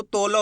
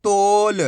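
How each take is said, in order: First: तोला with a full, open ला at the end; the mistake: say तोला with a full ला; wrong full ending. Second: तोल with a clipped half ल at the end; half final sound. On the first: Teacher showing pupils the wrong reading with a full ला. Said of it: "अगर पूरा उच्चारण कर दोगे ला तो तोला हो जाएगा". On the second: Teacher giving pupils the right reading, ending on half ल. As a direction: say तोल, cutting the last ल short. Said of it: "आपको पूरा उच्चारण नहीं करना ला". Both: Shown as a demonstration.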